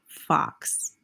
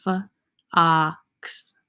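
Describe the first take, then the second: First: Said in the usual way. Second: "f-ox" split into separate sounds; sounded out. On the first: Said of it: "Here's an example of short O". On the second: Shown as a demonstration. Teacher demonstrating short O, "f-ox" broken sound by sound. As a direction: sound out "f-ox": f, a held ah, then ks. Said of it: "it has that ah sound".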